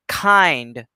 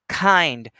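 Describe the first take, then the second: The two takes are said the same way.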